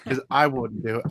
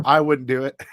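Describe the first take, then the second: First: Said in the usual way. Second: "I wouldn't do it" repeated louder, with "I" hit hard; joking confession. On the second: Real, not acted. Admitting to viewers he'd keep the extras, with a louder cheeky repeat. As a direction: own it cheekily the second time. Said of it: "'Cause I wouldn't do it".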